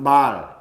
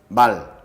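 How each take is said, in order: First: The vowel is held long. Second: The vowel is cut short. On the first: It means speech. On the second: It means horse.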